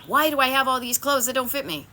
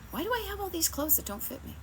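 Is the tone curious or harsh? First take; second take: harsh; curious. First: It sounds harsh and self-judging. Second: It sounds gentle and curious. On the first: The speaker is criticizing themselves. The speaker calls it wrong. "Make sure you're not judging yourself, beating yourself up, talking meanly to yourself. ... Not" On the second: The speaker is wondering without blame. The speaker calls it right. "Get curious about it. ... How about"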